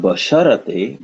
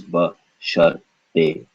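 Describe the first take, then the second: First: "basharate" run together with an a after the r; mispronunciation with extra a. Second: "basharte" said slowly as ba, shar, te, no vowel after r; broken into syllables. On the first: Teacher showing what it is not, "basharate" with an extra a. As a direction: say "basharate", voicing the a between r and t. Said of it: "So this is not basharate". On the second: Teacher correcting it, "basharte" slowly in separate syllables. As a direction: break "basharte" into three spaced syllables. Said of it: "but this is basharte". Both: Shown as a demonstration.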